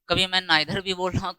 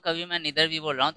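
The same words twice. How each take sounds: First: Neither said as nye-ther, with the long i of eye; British neither. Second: Neither said as nee-ther, with a long ee; American neither. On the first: Teacher shows students one way to say it, nye-ther. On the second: Teacher shows students the other way to say it, nee-ther. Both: Shown as a demonstration. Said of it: "ये हम लोग का pronunciation है".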